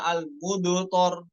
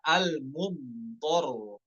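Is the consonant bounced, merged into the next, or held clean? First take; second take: bounced; clean. First: The consonant is released with an added bounce. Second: The consonant is held cleanly without bounce or merging. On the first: The speaker calls it wrong. "yang dikolkolahkan contohnya al-mudhor kurang tepat ya" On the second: The speaker calls it right. "Yang tepat adalah al-mudhor"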